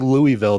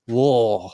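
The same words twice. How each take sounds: First: It is said plainly with every syllable clear. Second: It is said mumbled with syllables run together. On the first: This is how outsiders say the name. "When I say Louisville" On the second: This is how the locals say the name. "they're like, hey"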